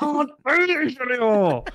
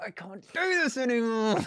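First: Very high, slow, hammed-up howl; mock despairing wail. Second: High, hammed-up moan of defeat; despairing wail. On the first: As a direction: howl it out in exaggerated misery. Co-host echoes it more exaggeratedly. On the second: Catchphrase of despair after the score.

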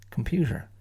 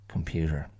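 First: Computer with the stress moved, higher; stress on first syllable. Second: Said in the usual way. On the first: Shown as a demonstration. Showing students how to stress each syllable. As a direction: punch a different syllable of computer. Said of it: "stress each syllable in turn". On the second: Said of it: "You know which one's correct".

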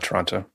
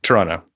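First: "Toronto" with both t sounds said clearly; "Toronto" as tuh-RON-toe, every t crisp; Toronto, outsider way. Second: "Toronto" with the second t dropped, like Toronno; "Toronto" said as tuh-RAH-no with no second t; Toronto, local way. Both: Shown as a demonstration. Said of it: "Toronto, not Toronto".

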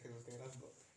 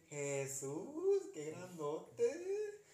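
First: Softer, quicker hushed mock-spooky version; podcast ghost line. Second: Drawn-out, higher mock-spooky wail with a laugh; podcast ghost line. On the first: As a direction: murmur it like a creepy podcast clip. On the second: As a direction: stretch it like a hammed-up scary narrator. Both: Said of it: "Así lo pone el podcast".

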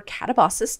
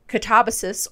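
First: Catabasis as cat-uh-BAH-sis; stress on third syllable. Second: Catabasis as kuh-TAB-uh-sis; stress on second syllable. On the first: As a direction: say catabasis with the beat on BA. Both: Shown as a demonstration. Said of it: "depending on your pronunciation".

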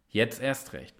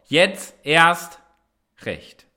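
First: Jetzt erst recht said softly to oneself; the slogan said quietly after the shout; quiet repeat. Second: A loud call to join in, fading at the end; shouted motto. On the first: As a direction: murmur the motto low and soft. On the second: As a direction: yell the slogan like a rallying cry. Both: Shown as a demonstration. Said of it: "und jetzt mach mal mit zu Hause".

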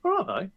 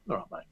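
First: High, concerned West Midlands check. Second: Soft, falling West Midlands "I'm fine"; Midlands reassurance. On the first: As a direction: pitch it right up, doubting, in a Midlands accent. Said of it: "then it's concern". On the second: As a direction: drop it quietly to close the matter, Midlands accent. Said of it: "Yes, I'm fine". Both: Acted.

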